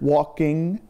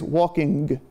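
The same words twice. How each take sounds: First: The ending has the standard pronunciation. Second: The ending has a northern regional pronunciation. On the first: "the broad English standard walking" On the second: "in the North, there is walking"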